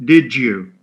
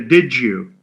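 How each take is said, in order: First: The d and y sounds blend into j. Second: The d and y sounds blend into j.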